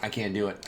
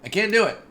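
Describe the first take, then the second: First: Said in the usual way. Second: High, loud yelp of frustration; loud high-pitched protest; exasperated cry. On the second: Real, not acted. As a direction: cry it out, at breaking point. Repeats, building frustration.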